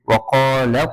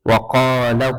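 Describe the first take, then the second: Both takes have the same delivery.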